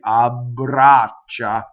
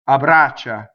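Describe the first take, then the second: First: The B is held long with continuous voicing. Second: The B is short, a single consonant. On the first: The speaker calls it right. "see, double B" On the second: The speaker calls it wrong. "one B"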